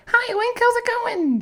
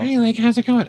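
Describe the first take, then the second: First: Very high squeaky fairy voice; Sprite voice. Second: High fairy voice; Sprite voice. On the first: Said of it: "Sprite's voice is like". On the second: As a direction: pitch it up for Sprite. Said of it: "Sprite's voice is very high". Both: Shown as a demonstration.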